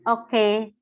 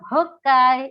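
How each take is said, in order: First: The word begins with a vowel after a glottal catch. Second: The word begins with a breathy h sound. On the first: It means a plain, standard yes. "oke itu kan pakainya hamzah ya" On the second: It means a very strong yes. "tapi kalau kita pakainya ha"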